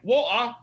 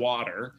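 First: It is said in a North London accent. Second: It is said in an American accent.

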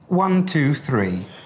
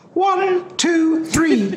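First: It is in a normal low male voice. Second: It is in a raised, higher-pitched voice.

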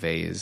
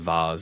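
First: The word is said the American way. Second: The word is said the British way. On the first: "instead of vase" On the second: "I will also say vase"

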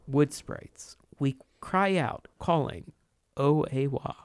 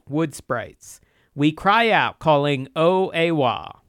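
First: It is read in a calm, serene tone. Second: It is read in an arch, knowing tone.

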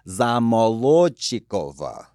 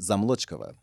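First: It is said slowly with full unstressed vowels. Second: It is said normally with unstressed vowels reduced. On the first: "when you say them slowly, you say them correctly. You don't schwa out the vowel" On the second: "but becomes"

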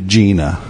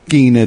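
First: The name is said the Americanized way. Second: The name is said the original Russian way. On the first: The name was adapted to blend in. "I've Americanized it" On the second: This is the name's original form. "it's actually the correct pronunciation in Russian"

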